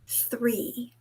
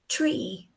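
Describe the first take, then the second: First: It begins with a soft 'th' sound. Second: It begins with a hard 't' sound. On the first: The speaker calls it right. "the English T H sound" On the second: The speaker calls it wrong. "That is not clear English"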